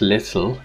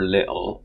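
First: Every sound in the word is clearly enunciated. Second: The middle sound is reduced in a dialect form. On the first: "if you enunciate it" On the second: "depending on the dialect"

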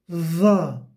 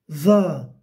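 First: The consonant is voiced with the tongue between teeth. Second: The same.

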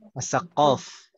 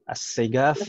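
First: The middle consonant is a deep throaty q. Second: The middle consonant is a plain g sound. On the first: This is the standard Arabic reading of the name. "kalau tulisan Arabnya Assaqaf. Kayak qaf" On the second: This is how the community's dialect reads the name. "lahjahnya mereka qaf-nya dibaca g gitu"

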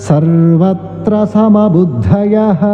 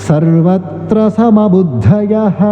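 No difference in how they are said.

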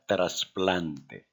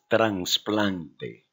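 First: No n sound comes before the s. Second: An n sound comes before the s. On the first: The speaker calls it right. "Diga trasplante" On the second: The speaker calls it wrong. "No digas trasplante, es incorrecto"

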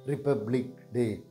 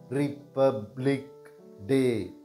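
First: It is said at normal speed. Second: It is said slowly.

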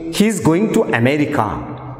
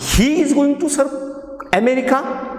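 First: The voice falls at the end. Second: The voice rises at the end. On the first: The speaker is simply stating a fact. "When I say" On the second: The speaker is surprised by the fact. "So the surprise question mark is, ... That means I am surprised"

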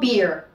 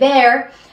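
First: The vowel is a long, close ee sound. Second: The vowel is a short, open e sound. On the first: The speaker calls it right. "tenemos la doble E y la pasamos a una I. Y es tan sencillo como beer" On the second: The speaker calls it wrong. "La cerveza no se dice beer"

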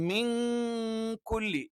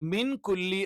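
First: The n sound is hidden and made indistinct. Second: The n sound is pronounced clearly and fully. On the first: The speaker calls it right. "നൂനൊന്ന് അവ്യക്തമാക്കി ഉച്ചരിച്ചുകൊണ്ടാണ്" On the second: The speaker calls it wrong. "മിൻ കുല്ലി എന്ന് നമ്മൾ പറയില്ല"

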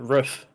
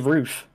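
First: Roof is said in an American accent. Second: Roof is said in a British London accent. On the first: "but you say it as a uh" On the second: "I say roof"

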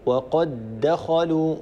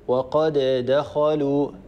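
First: The two d sounds merge into one doubled d. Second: The two d sounds are pronounced separately. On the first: The speaker calls it right. "فيصير النطق بدال مشددة" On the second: The speaker calls it wrong. "ولا نقول وقد دخلوا، هذا فيه صعوبة"

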